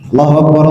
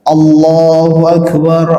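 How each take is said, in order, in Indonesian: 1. Diucapkan dengan cepat dan jedanya sedikit. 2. Diucapkan dengan lambat dan tenang. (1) "Cepat saja"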